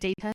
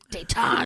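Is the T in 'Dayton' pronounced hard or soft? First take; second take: soft; hard. First: The middle T is soft and barely pronounced. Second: The middle T is pronounced hard and clearly. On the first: The speaker calls it right. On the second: The speaker calls it wrong.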